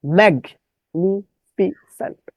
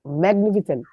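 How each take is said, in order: First: "ম্যাগনিফিসেন্ট" slowly, in separate syllables; distorted spelling pronunciation. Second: Said in the usual way. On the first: Shown as a demonstration. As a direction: pause after each syllable of "ম্যাগনিফিসেন্ট". ("ম্যাগনিফিসেন্ট" ধীরে, ভেঙে বিকৃত উচ্চারণ) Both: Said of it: "বিকৃত উচ্চারণ করবেন".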